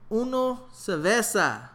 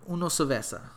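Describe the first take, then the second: First: Slow, drawn-out repeat of "Uno cerveza". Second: Said in the usual way. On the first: Retold or imitated. To the bartender who did not hear, slow repeat. Repeating order louder, slower.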